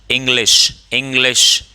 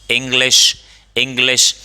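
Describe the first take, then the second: Both takes have the same delivery.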